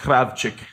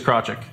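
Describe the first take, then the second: First: The name is said with a Ukrainian pronunciation. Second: The name is said with an anglicized pronunciation. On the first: "in its proper pronunciation ... it'd be pronounced" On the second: "The easiest way to say it is"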